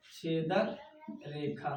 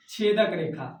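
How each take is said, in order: First: छेदक रेखा spaced and softer, word by word; छेदक रेखा repeated softly with a pause between the words; slow repeat for dictation. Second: Said in the usual way. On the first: Shown as a demonstration. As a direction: spell out छेदक रेखा slowly and quietly for notes. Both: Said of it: "इसको हिंदी में क्या बोलते हैं?".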